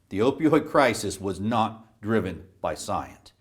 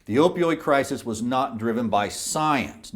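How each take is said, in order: First: Slower, deliberate, with weighty pauses; emphatic restatement. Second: Said in the usual way. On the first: Real, not acted. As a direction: drive the denial home word by word. Repeats it after "No" for emphasis.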